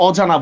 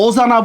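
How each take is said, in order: First: "অজানা" said with an open ɔ, as aw-jana; open ɔ at start. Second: "অজানা" said with a rounded o, as o-jana; closed o at start. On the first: Teacher offering students the right option, "অজানা" as aw-jana. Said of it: "নাকি অজানা বলি বলেন তো". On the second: Teacher testing students with the wrong option, "অজানা" as o-jana. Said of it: "আমরা কি অজানা বলি নাকি অজানা". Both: Shown as a demonstration.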